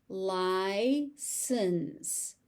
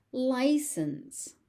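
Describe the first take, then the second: First: "License" as lie, pause, sense; syllable by syllable. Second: Said in the usual way. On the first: Shown as a demonstration. Teacher sounding out "License" for learners, syllable by syllable. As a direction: split and stretch "License".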